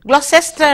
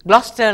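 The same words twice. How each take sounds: First: The word is said with every written syllable sounded. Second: The word is said short, with syllables dropped. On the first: The speaker calls it wrong. "உச்சரிக்கும் பொழுது Gloucester என்று சொல்ல வேண்டாம்" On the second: The speaker calls it right. "Gloucester என்று தான் சொல்வார்கள்"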